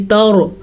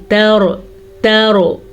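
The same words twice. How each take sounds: First: तौरो with ता said heavy like रॉ; wrong heavy ta. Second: तौरो with ता kept light and thin; correct light ta. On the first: Teacher showing a common mistake, heavy ta. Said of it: "बाज़ लोग ता को भी पुर पढ़ लेते हैं". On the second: Teacher correcting the mistake with light ta. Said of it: "नहीं". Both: Shown as a demonstration.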